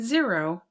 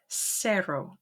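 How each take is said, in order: First: The word begins with a buzzing Z sound. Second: The word begins with a hissing S sound. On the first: The speaker calls it wrong. "you will not say zero" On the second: The speaker calls it right. "but cero, like an S"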